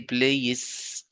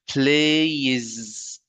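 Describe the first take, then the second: First: The word ends in a voiceless s sound. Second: The word ends in a voiced z sound. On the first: The speaker calls it wrong. "I don't say plays. No, this is wrong" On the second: The speaker calls it right. "Here z, z. It's a voiced sound"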